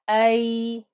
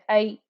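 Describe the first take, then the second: First: The final sound is held and keeps flowing. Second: The final sound is cut off abruptly. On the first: The speaker calls it right. "you can hear the sound flowing through" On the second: The speaker calls it wrong. "Don't stop too quick. Don't say ay. That won't be a proper sound"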